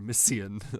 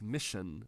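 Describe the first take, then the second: First: The middle consonant is a plain unblended s sound. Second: The middle consonant is blended into a sh sound. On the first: The speaker calls it wrong. "we don't say Asia or mission" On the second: The speaker calls it right. "we have words like mission"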